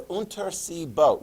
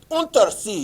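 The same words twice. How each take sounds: First: Said in the usual way. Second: Loud, high German-accented "Untersee"; emphatic German pronunciation of "Untersee", pitched up; mock German accent. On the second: Shown as a demonstration. Drills the German name emphatically.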